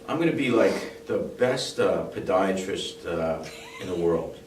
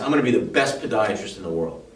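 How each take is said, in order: First: It sounds hesitant, with fillers and breaks. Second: It sounds firm and determined, without fillers. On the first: The speaker is not truly committed to the goal. "do you believe that I'm going to be the best?" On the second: The speaker is fully committed to the goal. "It's a different intention level"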